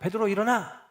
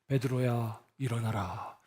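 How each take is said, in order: First: It is said urgently and hurriedly. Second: It is said in a solemn, grave voice.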